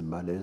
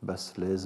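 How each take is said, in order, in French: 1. Le S est muet et le A est allongé. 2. Le S dans Baslez se prononce. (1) "je pense que le S allonge le A sans être prononcé" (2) "Je n'ai jamais très bien su comment prononcer"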